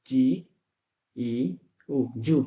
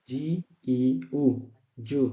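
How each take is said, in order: Both takes have the same delivery.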